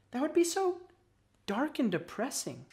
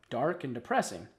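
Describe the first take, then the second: First: Put-on higher-pitched young worm character; Cassie's voice. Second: Low, sombre narrator's echo. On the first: Worm friend imagining life underground, in higher voice. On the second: Narrator reflecting on the worm's life, sombre. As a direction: let it sink lower, gloomily. Narrator echoes Cassie's words. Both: A narrator's reading.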